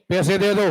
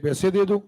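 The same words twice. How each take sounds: First: It is said as a firm demand. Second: It is said as a pleading request. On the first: The listener owes the money and must return it. "मतलब हमें तुमसे चाहिए, तुम हमसे उधार लिए हो" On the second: The speaker needs the money and is asking for it. "वो तुमसे आग्रह कर रहा है"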